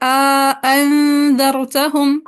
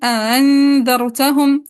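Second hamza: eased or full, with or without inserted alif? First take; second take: full, alif; eased, none. First: Both hamzas are fully pronounced, with an alif inserted. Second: The second hamza is softened, with no alif inserted. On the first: "तहक़ीक़ माल इदखाल" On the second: "तहसील बिला इदखाल"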